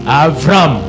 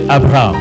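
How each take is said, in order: First: The name is said with a v, as Avram. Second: The name is said with a b, as Abraham. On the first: This is the Hebrew form of the name. "c'est dit en hébreu Avram" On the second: This is the French form of the name. "chez les Français, c'est Abraham"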